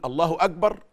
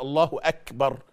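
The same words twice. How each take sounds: First: Quick "أكبر" with ك voiced as g; mispronounced kaf. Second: "أكبر" with a crisp k and puff of air; aspirated kaf. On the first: Teacher testing listeners with the wrong take, g in "أكبر". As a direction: say "أكبر" as "agbar", without breath release. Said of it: "اختبر نفسك كده، شوفها أنت بتقول". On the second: Teacher offering the right take, breathy k in "أكبر". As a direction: release the ك in "أكبر" audibly before "bar". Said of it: "ولا". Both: Shown as a demonstration.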